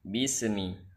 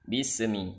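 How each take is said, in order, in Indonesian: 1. Ada bunyi vokal pendek seperti gema setelah bunyi s. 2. Ada bunyi vokal pendek seperti gema setelah bunyi s.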